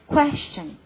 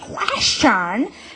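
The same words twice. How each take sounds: First: The word is pronounced in a simple, clear way. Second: The word is pronounced in an exaggerated, overdone way. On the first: The speaker calls it right. "just say question" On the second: The speaker calls it wrong. "instead of saying question"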